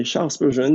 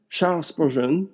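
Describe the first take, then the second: First: Said in the usual way. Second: Charles Spurgeon said with an English accent. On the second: Shown as a demonstration. Preacher quoting a theologian to the congregation, in an English accent. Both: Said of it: "désolé pour mon accent anglais".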